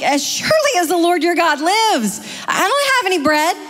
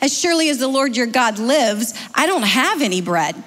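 First: It is said with a sassy tone. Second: It is read in a neutral tone.

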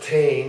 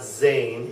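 First: The word begins with a plain t sound. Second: The word begins with a buzzing z sound. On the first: "that is not Tain" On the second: "it's not Zane"

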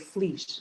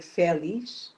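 First: The first two consonants are joined with no vowel. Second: A vowel is inserted between the first two consonants. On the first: This is how it is said in Portugal. "we say flish, ... but we say in Portuguese, from Portugal" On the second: This is how it is said in Brazil. "we don't say felish, as you in Brazil"

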